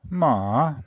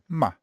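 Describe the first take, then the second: First: The pitch dips low and then rises. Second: It is short and clipped with no pitch movement. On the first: "third tone" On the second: "the neutral tone"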